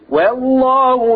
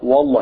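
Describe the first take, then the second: First: The opening w sound is light and thin. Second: The opening w sound is heavy and thick. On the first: The speaker calls it right. "الواو مرققة" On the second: The speaker calls it wrong. "الناس معظم تقول والله والله"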